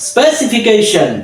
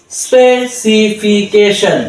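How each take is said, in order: First: "স্পেসিফিকেশন" joined up, higher then falling; একবারে উচ্চারণ. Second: "স্পেসিফিকেশন" very slowly, syllable by syllable; ভেঙে ভেঙে উচ্চারণ. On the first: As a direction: say "স্পেসিফিকেশন" as one whole word. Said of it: "আমরা বলবো". ("স্পেসিফিকেশন" একবারে টানা উচ্চারণ) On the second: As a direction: draw out each syllable of "স্পেসিফিকেশন". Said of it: "এই syllable ভেঙে ভেঙে". ("স্পেসিফিকেশন" syllable ভেঙে ধীরে ধীরে) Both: Shown as a demonstration.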